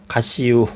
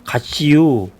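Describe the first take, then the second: First: Understated Chungcheong dialect. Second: A light Chungcheong lilt on 가시유, lifted a bit; light Chungcheong dialect. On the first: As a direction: drop it as a dry Chungcheong punchline. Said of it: "그러면 끝난다고 그래요". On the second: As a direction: tease it out as a Chungcheong farewell. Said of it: "충청도 사람들은". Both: Retold or imitated.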